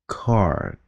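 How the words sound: It is said with a curled r sound. "theo giọng Mỹ thì các bạn nói call, xong rồi cong lưỡi lên, xong rồi d"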